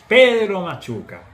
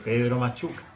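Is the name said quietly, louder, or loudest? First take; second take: loudest; louder. First: It is said loudest of all. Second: It is said somewhat louder.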